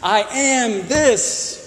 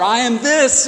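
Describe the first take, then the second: First: Stretched out slowly, every word set apart; slow demo. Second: Said in the usual way. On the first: Shown as a demonstration. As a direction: lay it out slowly as an example. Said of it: "It's a better sentence". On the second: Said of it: "that's a more complete sentence".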